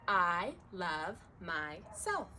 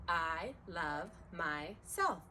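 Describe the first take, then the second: The two takes are said the same way.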